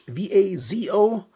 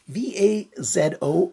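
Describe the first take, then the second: First: The letters are spelled in American English. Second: The letters are spelled in non-American English.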